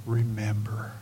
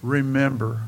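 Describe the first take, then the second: First: Softer, hushed remember; quiet. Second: Remember said fuller and firmer, back at full voice; firm repeat. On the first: Pastor softly introducing the sermon's third point, hushed. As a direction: say remember softly, almost to yourself. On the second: Pastor repeating the key word firmly to the congregation. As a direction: land Remember as a firm command. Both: Shown as a demonstration. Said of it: "is this".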